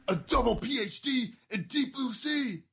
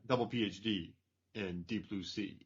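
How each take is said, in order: First: It is yelled, imitating Trent Slater. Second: It is said in a normal speaking voice.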